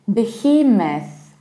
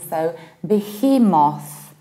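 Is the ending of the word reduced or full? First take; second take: reduced; full. First: The ending of the word is reduced. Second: The ending of the word is said fully. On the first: "with a reduced ending" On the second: "without reducing the ending"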